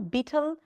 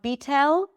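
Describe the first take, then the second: First: The final L is dark, almost an O. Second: The final L is light, tongue tip forward. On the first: The speaker calls it right. "It's not a light like L, beetle" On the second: The speaker calls it wrong. "It's not beetle, not beetle, right? It's not a light like L"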